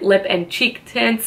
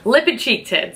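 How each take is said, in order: First: It sounds hesitant and unsure. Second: It sounds loud and confident.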